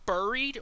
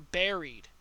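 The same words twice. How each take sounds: First: The first syllable does not sound like 'berry'. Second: The first syllable sounds like 'berry'.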